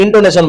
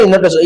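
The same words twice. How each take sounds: First: ଇଣ୍ଟୋନେସନ said in-to-ne-son, n before t; corrected pronunciation. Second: ଇନୋଟେସନ said in-o-te-son, n and t swapped; mispronounced intonation. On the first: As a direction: fix it to ଇଣ୍ଟୋନେସନ carefully. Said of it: "ସରି". (ଇଣ୍ଟୋନେସନ ସଠିକ ଉଚ୍ଚାରଣ) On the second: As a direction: slip into ଇନୋଟେସନ before correcting. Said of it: "ଇ-, ସରି, ଇଣ୍ଟୋନେସନ". (ଇନୋଟେସନ ଭୁଲ ଉଚ୍ଚାରଣ) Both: Real, not acted.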